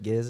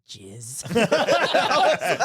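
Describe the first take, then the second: First: It begins with a hard G sound. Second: It begins with a soft J sound. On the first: The speaker calls it right. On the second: The speaker calls it wrong.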